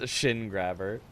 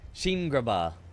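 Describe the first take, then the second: First: The first word has a short 'i' vowel. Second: The first word has a long 'ee' vowel. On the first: This is the expected reading. The speaker calls it right. "Didn't read it as shin grabber" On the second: Someone else read it this way. The speaker calls it wrong. "You read it as sheen grabber or something. I don't know, some weird way of saying it"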